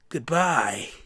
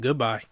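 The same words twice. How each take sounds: First: It is said in a Nagito impression. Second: It is said in his natural voice.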